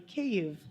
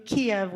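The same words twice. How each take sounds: First: "Kyiv" as KEE-yiv, the Ukrainian way; local pronunciation. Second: Said in the usual way. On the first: Shown as a demonstration. Storyteller corrects the usual Kiev, saying "Kyiv" the Ukrainian way. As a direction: say "Kyiv" with a Ukrainian vowel and soft glide. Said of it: "which is pronounced actually". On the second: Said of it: "which is pronounced actually Kyiv".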